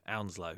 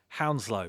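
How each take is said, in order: First: The word begins without an h sound. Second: The word begins with an h sound.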